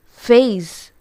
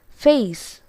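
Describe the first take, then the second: First: The word ends with a buzzing Z sound. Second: The word ends with a hissing S sound. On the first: The speaker calls it right. "It's Z, not S" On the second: The speaker calls it wrong. "It's wrong"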